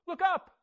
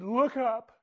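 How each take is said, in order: First: The still small voice urging again, higher; gentle repeated call. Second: Said in the usual way. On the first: Retold or imitated. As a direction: Look up lifted higher on the repeat. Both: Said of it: "A still small voice said".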